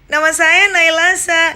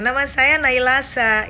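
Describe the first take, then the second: First: The voice sounds thin, shrill and tinny. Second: The voice sounds full and not shrill. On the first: The speaker calls it wrong. "Nah, itu cempreng" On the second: The speaker calls it right. "itu tidak cempreng"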